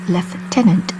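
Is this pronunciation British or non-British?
British. It is said with the British pronunciation. "I say lieutenant, The former is common usage in the U K"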